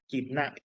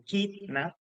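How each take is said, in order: First: Said in the usual way. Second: Put-on "kidnap" slow, split KID, nap; syllable by syllable. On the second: Shown as a demonstration. Teacher correcting the word for students, slowly sounded out. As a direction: stretch "kidnap" apart, higher on the first syllable.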